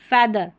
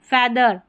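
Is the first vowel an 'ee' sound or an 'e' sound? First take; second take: e; e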